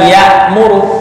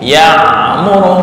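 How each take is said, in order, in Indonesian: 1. Konsonan tengahnya adalah hamzah biasa (glottal stop). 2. Konsonan tengahnya adalah 'ain' tenggorokan yang tegang. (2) "untuk ain"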